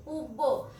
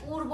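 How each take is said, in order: First: পূর্ব as "pub-bo", without any r; r dropped, b doubled. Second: পূর্ব as "pur-bo", r clearly heard; r sounded. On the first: Teacher showing the mistake, পূর্ব said "pub-bo". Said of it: "এখানে পূর্ব হবে". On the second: Teacher giving the correction, r sounded in পূর্ব. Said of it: "আমাদের র উচ্চারণ হবে". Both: Shown as a demonstration.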